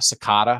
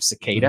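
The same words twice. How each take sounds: First: It is said with a British accent. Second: It is said with an American accent.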